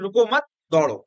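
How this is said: The pause comes after 'मत'.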